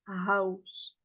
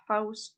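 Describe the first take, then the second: First: "house" slow, with a light h; English house. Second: "house" with throaty Arabic h; not-this house. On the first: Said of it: "on dit house". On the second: Teacher correcting by contrast, "house" with heavy friction. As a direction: rasp the h at the start of "house". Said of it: "On dit pas house". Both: Shown as a demonstration.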